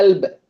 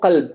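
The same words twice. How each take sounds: First: அல்ப் with a glottal onset, no Q; Egyptian hamza. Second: கல்ப் with a strong throat Q at the start; standard Arabic Qaf. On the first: Teacher showing Egyptian heart, அல்ப் starting on hamza. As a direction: drop the Q and open அல்ப் on the vowel. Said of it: "எப்படி சொல்லுவாங்க". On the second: Teacher giving standard Arabic for heart, கல்ப் with Qaf. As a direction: press the first consonant of கல்ப் from the upper throat. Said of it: "அரபிக்ல என்ன சொல்லுவோம்". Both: Shown as a demonstration.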